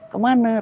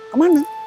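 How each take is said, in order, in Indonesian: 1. Kata itu diucapkan ringan, tanpa penekanan. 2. Kata itu diucapkan berat, dengan penekanan yang jelas. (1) "ringan gitu" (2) "rada penekanannya itu"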